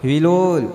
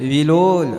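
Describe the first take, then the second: Both takes have the same delivery.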